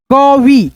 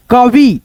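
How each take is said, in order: First: कवि broken up as क, then वि; separated beginner's reading of कवि; split into parts. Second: Said in the usual way. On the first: Shown as a demonstration. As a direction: sound out कवि in two pieces. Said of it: "दो भागों में divide करके". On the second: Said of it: "उसके बाद से बोल देते हैं".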